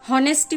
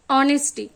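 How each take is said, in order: First: The word begins with an h sound. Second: The word begins with a vowel sound. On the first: The speaker calls it wrong. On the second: The speaker calls it right.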